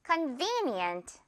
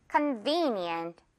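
First: Softer, slow convenient, V hit; slow, quiet drill read; stress on V. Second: Slow convenient, V hit; second drill take, steady; slow drill repeat; stress on V. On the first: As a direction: model it softly for repetition. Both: Shown as a demonstration. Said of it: "듣고 따라해 주세요".

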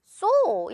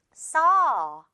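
First: Saw said with a rounded oh like "so"; the common mistake, saw as "so"; wrong rounded saw. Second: Saw said with a wide open ah, close to "sa". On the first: Teacher demonstrating the common mistake, saw rounded like so. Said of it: "saw 이렇게 발음하는 친구들이 가장 많은 것 같아요". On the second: Teacher showing the right saw with a wide open ah. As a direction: drop the jaw on saw. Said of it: "saw 이렇게 발음이 됩니다". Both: Shown as a demonstration.

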